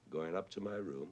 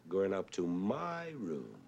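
First: Said in the usual way. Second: "my" punched higher and stretched long; stress on my. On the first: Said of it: "You would say, normally". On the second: Shown as a demonstration. Showing the composer's deliberate wrong accent, "my" stressed and long. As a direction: put the weight on "my", drawing it out. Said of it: "that's a wrong accent".

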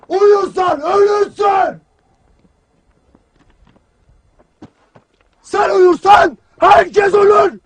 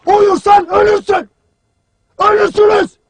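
First: Drawn-out, hammering military shout; slow shouted warning. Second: Forceful military warning; shouted warning. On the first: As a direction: stretch every word as you shout the warning. Commander hammers the warning slowly. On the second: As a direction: drive the warning into the whole troop. Commander warns troops, shouting. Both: Acted.

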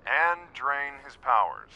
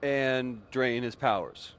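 First: Slow, flat echo of brother's words; grudging mock repeat. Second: Slow, pointed. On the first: Sister mocking brother's insistence, slow grudging echo. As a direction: repeat it back, rolling your eyes. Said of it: "Okay, fine". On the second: Acted.

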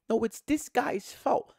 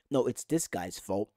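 First: High, slow mock accusation; mock another fan blaming, pitched up; high-voiced blamer. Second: Lower-pitched voice of a fan passing the blame; mock one fan blaming, kept low; low-voiced blamer. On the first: Fan imitating fans picking someone to blame, high accusation. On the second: Fan imitating fans picking someone to blame, low accusation.

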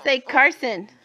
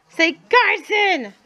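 First: Said in the usual way. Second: "Say Carson" slow, much higher, stretching "Carson"; slow coaxing Carson. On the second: Shown as a demonstration. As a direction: draw out "Carson" high so a toddler copies it. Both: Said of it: "I'm trying to teach him to say his name".

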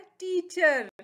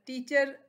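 First: teacher higher, in two drawn-out beats; split into syllables. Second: Said in the usual way. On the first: Shown as a demonstration. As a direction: stretch टी and चर in teacher. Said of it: "इसके टू syllables हैं". (Teacher को दो हिस्सों में खींचकर) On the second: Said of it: "उस्ताद जो है".

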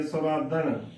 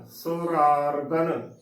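First: ਸੁਰਾਦਨ with the second r dropped; ਸੁਰਾਦਨ as surādan, one r only; wrong pronunciation. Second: ਸੁਰਾਰਦਨ slowly with both r sounds clear; ਸੁਰਾਰਦਨ as surārdan, every r spoken; correct careful pronunciation. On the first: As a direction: say ਸੁਰਾਦਨ skipping the second r sound. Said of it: "ਸੁਰਾਦਨ ਬਹੁਤ ਹੀ ਗਲਤ ਉਚਾਰਨ ਹੈ". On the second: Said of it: "ਦੋਨੇ ਰਾਰਿਆਂ ਦੀ ਆਵਾਜ਼ ਪੂਰੀ ਆਉਣੀ ਚਾਹੀਦੀ ਹੈ". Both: Shown as a demonstration.

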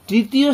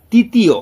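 First: Said in the usual way. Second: তৃতীয় said as "titiyo", the first r missing; wrong pronunciation. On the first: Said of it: "বলতে হবে তয় রিকার". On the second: Retold or imitated. Teacher imitating what many people say, mispronounced. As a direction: drop the r from তৃতীয়, making it "titiyo". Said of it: "অনেকে উচ্চারণটা ভুল করে".

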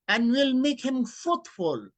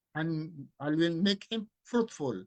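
First: Slow, loud, raised verse declaimed; solemn reading. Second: Said in the usual way. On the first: Shown as a demonstration. Preacher quoting the verse to the congregation, loud and solemn. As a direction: proclaim it like holy writ.

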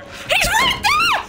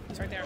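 First: Very high, drawn-out shriek; panicked scream. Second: Very quiet, low-pitched murmur; hushed. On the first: Player seeing the stalker right there, panicked scream. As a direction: scream it in real terror, stretching the words. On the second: Player spotting the stalker right there, hushed and low. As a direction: say it under your breath, low. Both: Real, not acted.

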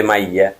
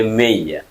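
First: মাইয়া with an open "mai" first syllable; "mai-ya" vowel. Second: মেইয়া with a closer "mei" first syllable; "mei-ya" vowel. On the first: Teacher contrasting the word for water with hundred, open "mai" in মাইয়া. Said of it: "পানির নাম হচ্ছে মাইয়া". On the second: Teacher telling hundred apart from water, closer "mei" in মেইয়া. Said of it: "এটা হলে মেইয়া". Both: Shown as a demonstration.

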